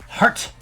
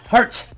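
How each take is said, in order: No difference in how they are said.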